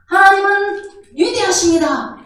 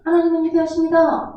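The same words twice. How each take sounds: First: It is said loudly. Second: It is said quietly.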